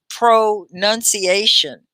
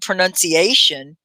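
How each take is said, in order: First: "Pronunciation" slowly, leaning on the opening "Pro"; slow demo of "Pronunciation" with a stressed first syllable. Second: Said in the usual way. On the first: Shown as a demonstration. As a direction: hit the "Pro" in "Pronunciation", then sound out the rest. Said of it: "I think I stressed the first syllable". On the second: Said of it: "when I said pronunciation".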